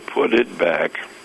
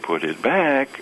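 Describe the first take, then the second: First: A weary, exasperated melody that moves in pitch. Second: A sharp, startled melody that moves in pitch. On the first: This has happened many times before. "meaning this has happened so many times before" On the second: The listener was just caught doing something. "it's like I caught you with your hand in a cookie jar"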